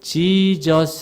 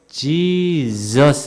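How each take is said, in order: First: The middle consonant is a hissing s sound. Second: The middle consonant is a buzzing z sound. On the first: The speaker calls it wrong. "Jesus 하지 마시고" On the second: The speaker calls it right. "이 Z 발음"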